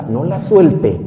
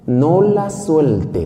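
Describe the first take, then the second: First: Said in the usual way. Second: Each word drawn out very slowly; no la suelte, stretched out; slow emphatic instruction. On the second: Acted. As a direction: spell it out slowly so she remembers.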